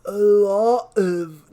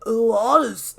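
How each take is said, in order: First: Droopy defeated mumble, slow; loser voice. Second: The wrong character's voice; Dan's voice. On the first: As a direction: drag it out like a sad loser. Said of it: "figure out how to do a different, like, s-, loser voice". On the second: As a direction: say it like Dan. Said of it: "that's the same voice as Dan". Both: Acted.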